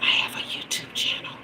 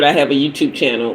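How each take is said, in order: First: Breathy secret whisper, no voice at all. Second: Said in the usual way. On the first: Retold or imitated. Whispering to the store clerk about her channel. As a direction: hush it like a confession. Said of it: "I whispered to him". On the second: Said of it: "And I whispered, "I have a YouTube channel," but I said".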